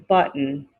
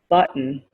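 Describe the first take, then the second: No difference in how they are said.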